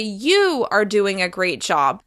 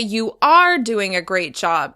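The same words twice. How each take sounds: First: The word 'you' carries the stress. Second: The word 'are' carries the stress. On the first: This person, not someone else, did the great job. "if you stress the word you or are" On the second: The speaker is reassuring someone who doubts themselves. "if you stress the word you or are"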